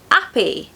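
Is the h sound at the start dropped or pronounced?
dropped. The word begins without any h sound. "in the Cockney accent, they drop the H"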